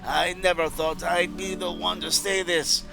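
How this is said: It is read in a put-on troll voice.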